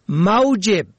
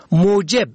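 First: موجب said "maujeb"; fatha on first syllable. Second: موجب said "moojeb"; damma on first syllable. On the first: Presenter teaching the word for salary, موجب as "maujeb". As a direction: open موجب with the diphthong au. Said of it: "به فتح اول". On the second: Presenter teaching the word for cause, موجب as "moojeb". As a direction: open موجب with o drawn into w. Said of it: "به ضم اول". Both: Shown as a demonstration.

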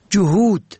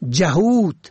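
First: جهود with "u" after the ج, "juhud"; rounded short vowel opening جهود; first vowel damma. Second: جهود with "a" after the ج, "jahud"; first vowel fatha. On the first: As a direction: say جهود as ju-HUD. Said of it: "به ضم اول". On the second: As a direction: say جهود as ja-HUD. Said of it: "به فتح اول". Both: Shown as a demonstration.

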